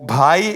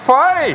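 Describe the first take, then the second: First: The word begins with an aspirated 'bh' sound. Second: The word begins with an 'f' sound. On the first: "ഒരിക്കലും ഭായ് എന്ന് വിളിക്കില്ല" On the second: "ഭ എന്ന അക്ഷരം പറയാറില്ല"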